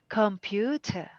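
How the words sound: It is said in a British accent.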